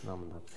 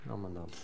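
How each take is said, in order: First: The phrase is mumbled in a short, blurred form. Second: The same.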